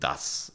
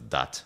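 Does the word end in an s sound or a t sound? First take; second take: s; t. First: The word ends with an s sound. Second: The word ends with a t sound. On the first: "you replace like the S in das" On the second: "with T. So it's dat"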